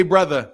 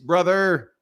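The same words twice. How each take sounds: First: "brother" with the final R softened to "uh"; wrong "brother". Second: "brother" ending in a full R-coloured "er". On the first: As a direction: drop the R off the end of "brother". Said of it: "Don't say brother". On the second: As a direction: put a strong "er" on the end of "brother". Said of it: "Put some er on that bitch". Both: Shown as a demonstration.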